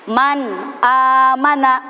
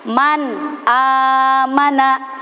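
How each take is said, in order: First: The n of man is pronounced clearly. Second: The same.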